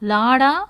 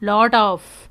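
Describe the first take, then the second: First: The words blend into one reduced form. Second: Both words are said fully and separately.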